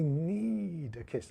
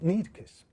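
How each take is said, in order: First: The word 'need' is stretched out long. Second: The word 'need' is said short and quick. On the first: "I could make need last really, really longer" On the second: "I could make it short and sweet"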